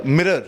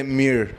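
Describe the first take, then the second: First: "mirror" in two syllables; lower, fully sounded "mirror"; full pronunciation. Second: "mirror" squashed into "meer"; low, one-syllable "mirror"; American pronunciation. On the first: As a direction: sound both parts of "mirror": MIRR-er. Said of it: "they don't see, uh, mirror". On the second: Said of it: "They say mirror". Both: Shown as a demonstration.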